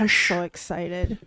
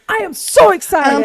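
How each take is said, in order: First: It is said flatly, with little enthusiasm. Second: It is said with lively, excited energy. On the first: The speaker calls it wrong. "the enthusiasm just bled through your voice" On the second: The speaker calls it right. "Let me do it again"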